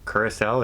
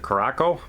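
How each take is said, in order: First: It uses the standard pronunciation of the name. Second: It uses a popular variant pronunciation of the name. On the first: The speaker calls it right. "is the proper name" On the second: The speaker calls it wrong. "some people like to pronounce it"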